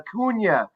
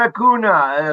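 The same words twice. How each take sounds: First: The middle consonant is an 'ny' sound. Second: The middle consonant is a plain 'n' sound. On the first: The speaker calls it right. "It's got the little tilde over the end" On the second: The speaker calls it wrong. "not Acuna"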